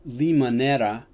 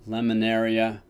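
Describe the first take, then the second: First: The name ends with an 'era' sound. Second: The name ends with an 'aria' sound. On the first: The speaker calls it right. "if I'm saying it right" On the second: The speaker calls it wrong. "I used to pronounce it Lemonaria"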